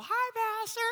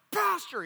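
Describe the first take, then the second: First: Very high, sing-out mock friendly hello; friendly greeting. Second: High, loud imitated angry shout; angry call. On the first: Preacher showing the nice greeting it was not, mock friendly. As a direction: chirp it as a harmless greeting. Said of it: "No, it's, "Pastor," you know". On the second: Preacher showing how the stranger hailed him, angry. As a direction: bark the name as a summons. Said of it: "like, an angry pastor". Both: Shown as a demonstration.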